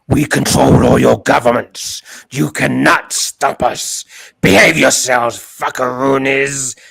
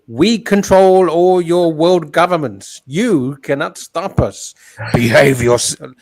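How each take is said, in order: First: It is said in a lower, changed voice. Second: It is said in a high-pitched voice.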